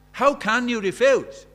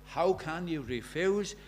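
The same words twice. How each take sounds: First: Louder, slower preaching challenge; "How" hit hard and drawn out, pressing the crowd; loud pleading. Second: Said in the usual way. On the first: Shown as a demonstration.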